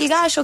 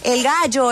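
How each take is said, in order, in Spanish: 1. Se dice sin acento colombiano. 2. Se dice con acento colombiano. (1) "que siempre dicen" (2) "o en colombiano"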